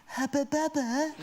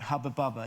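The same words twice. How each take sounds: First: Put-on much higher, slow, laughing Bristol accent; Bristolian cousin voice. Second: Said in the usual way. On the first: Cousin marvelling at the gum, high slow Bristolian accent. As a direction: stretch it out in a broad Bristol accent. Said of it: "but I can do the voice". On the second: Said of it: "my sister went".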